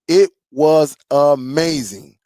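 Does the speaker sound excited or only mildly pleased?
excited. It is said with strong excitement. The sound was truly outstanding. "oh my goodness"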